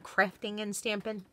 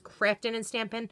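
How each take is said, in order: First: The final g sounds are clearly pronounced. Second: The final g sounds are dropped. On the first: The speaker calls it wrong. "not Crafting and Stampin'" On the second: The speaker calls it right. "Notice there's no G's"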